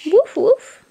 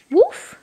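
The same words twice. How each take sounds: First: High, louder woof woof; two bright playful barks for the little one; double dog bark. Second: Put-on high, louder woof for a toddler; dog bark. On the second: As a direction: bark like a playful puppy. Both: Shown as a demonstration. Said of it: "What does a dog say?".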